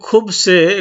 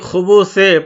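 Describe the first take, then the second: First: No vowel is heard between the b and s. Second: A vowel is heard between the b and s. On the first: "সাকিন দিয়েও পাঠ করে" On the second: "এখানে আমি খুবুসে পাঠ করলাম"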